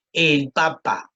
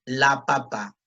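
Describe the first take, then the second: First: "el papa" with "el" stressed, slow; stress on the article. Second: "la papa" with "la" stressed; stress on the article. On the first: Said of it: "Ejemplo, dice". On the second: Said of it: "le pongo un artículo femenino". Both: Shown as a demonstration.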